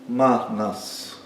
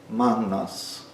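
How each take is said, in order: No difference in how they are said.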